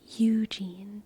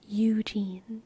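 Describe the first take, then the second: Both takes have the same delivery.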